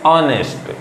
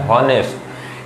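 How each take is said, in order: First: The word starts directly with a vowel sound. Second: The word starts with an audible h sound. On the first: The speaker calls it right. "ये actually में होता है ऑनेस्ट" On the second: The speaker calls it wrong. "अगर आपने इस शब्द का उच्चारण निकाला है हॉनेस्ट, ये हॉनेस्ट नहीं"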